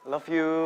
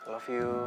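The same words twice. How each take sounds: First: It is said loudly. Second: It is said quietly.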